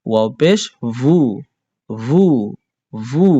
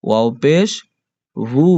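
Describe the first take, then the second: First: ভু repeated with a vowel midway between উ and অ; Arabic vowel demo. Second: ভু said between u and o, not a pure উ or অ; ভু with a vowel midway between উ and অ; Arabic damma, ভু neither উ nor অ; Arabic vowel demo. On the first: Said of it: "এর মাঝামাঝি থাকবে". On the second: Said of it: "উ অ উচ্চারণ হবে না". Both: Shown as a demonstration.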